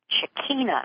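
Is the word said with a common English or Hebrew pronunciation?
Hebrew. The word is said with a Hebrew pronunciation. "in the Hebrew word Shekinah, actually is how they pronounce it"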